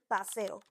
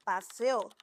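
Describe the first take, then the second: First: "paseo" with the stress on the middle syllable, pa-SE-o. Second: "paseo" with the stress on the last syllable, pa-se-Ó, said slowly; stress on final o. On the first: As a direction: say "paseo" leaning on SE, ending low and soft. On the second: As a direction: drag out "paseo" and land hard on the final Ó. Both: Shown as a demonstration. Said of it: "specifically the intonation".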